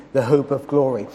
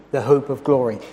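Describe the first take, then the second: No difference in how they are said.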